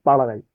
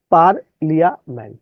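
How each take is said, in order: First: Said in the usual way. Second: "পার্লিয়ামেন্ট" in separate syllables, sounding the "লিয়া"; distorted spelling pronunciation. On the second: Shown as a demonstration. ("পার্লিয়ামেন্ট" ভেঙে, বানান ধরে বিকৃত উচ্চারণ) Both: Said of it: "বিকৃত উচ্চারণ করবেন".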